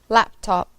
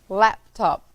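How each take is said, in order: No difference in how they are said.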